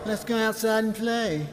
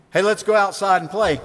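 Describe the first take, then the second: First: High, small-voiced playground mimicry; taunting, high-pitched copycat voice; mocking echo. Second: Higher, eager schoolkid voice; lightly acted kid's invitation; child inviting playmates. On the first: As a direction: parrot it back to get under their skin. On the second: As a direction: call friends out to play. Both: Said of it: "this idea of mocking".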